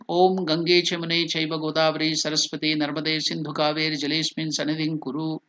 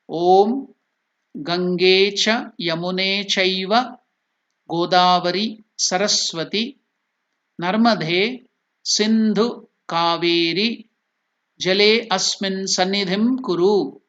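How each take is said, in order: First: The mantra is recited quickly and fluidly. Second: The mantra is recited slowly and deliberately. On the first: "This is the way the mantra is told fast" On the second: "I showed you how to pronounce it slowly"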